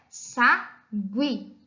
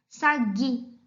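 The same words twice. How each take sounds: First: The u after the g is pronounced. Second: The u after the g is silent. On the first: The speaker calls it right. "A pronúncia correta é" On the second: The speaker calls it wrong. "Se a vogal U não fosse pronunciada, nós leríamos a palavra sagui da seguinte forma"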